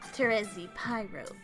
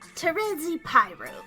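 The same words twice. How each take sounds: First: It is said in a lower, more subdued way. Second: It is said in a brighter, more upbeat way.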